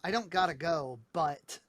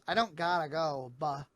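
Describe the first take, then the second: First: The t sounds are clearly pronounced. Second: The t is dropped, like a glottal stop.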